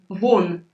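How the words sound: The word is said with exclamatory intonation. Go away. "with this exclamatory intonation"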